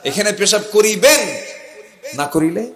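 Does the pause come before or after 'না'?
before. The pause falls before the word না. Urinating here is required, with a fine for not doing it.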